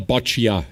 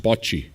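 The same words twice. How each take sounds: First: Boccia with an extra "ah" on the end; mistaken pronunciation. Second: Bocce in two syllables, BOTCH-ee; corrected pronunciation. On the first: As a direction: say boccia in three syllables, BOTCH-ee-ah. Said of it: "It's just bocce". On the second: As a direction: end bocce cleanly on "ee". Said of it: "It's not boccia". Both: Shown as a demonstration.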